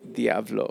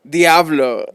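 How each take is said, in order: First: It is said at a normal, quieter volume. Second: It is said loudly with passion.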